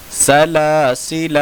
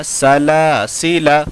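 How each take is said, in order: First: सलासिला with long ला and long final आ; slow सलासिला, alif sounded; written-form reading. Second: सलासिला with short final अ; measured सलासिला, alif silent; correct recitation. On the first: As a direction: draw out the end of सलासिला. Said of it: "अलिफ के साथ है". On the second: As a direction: keep the last vowel of सलासिला brief. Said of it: "लेकिन पढ़ा जाएगा". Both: Shown as a demonstration.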